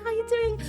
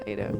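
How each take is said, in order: First: It is said in a high, nervous voice. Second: It is said in a lower, relaxed voice.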